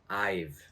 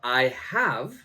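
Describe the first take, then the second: First: The words are contracted into one syllable. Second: Both words are said in full.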